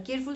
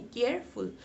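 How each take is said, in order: First: careful said quickly as one unbroken word; run together. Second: careful with a break between care and फुल; split into syllables. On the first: Teacher testing whether it fits one breath, run together. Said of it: "क्या एक साथ बोल सकते हो". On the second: Teacher correcting the one-breath version, split into syllables. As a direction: separate careful into two clear beats. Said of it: "क्या एक साथ बोल सकते हो, नहीं". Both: Shown as a demonstration.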